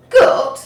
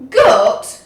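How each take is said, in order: First: High, loud shocked question; can't believe the offer. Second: Loud, falling disbelieving repeat; disbelief. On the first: Pirate shocked at goat stew. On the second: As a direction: repeat it flatly, appalled. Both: A narrator's reading.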